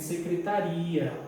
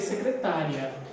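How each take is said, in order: First: The stress falls on the last syllable. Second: The stress falls on the second-last syllable. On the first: It means a government department or office. The speaker calls it right. "eu não coloquei acento" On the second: It means a female secretary. The speaker calls it wrong. "Tem muita gente que vai ler secretária"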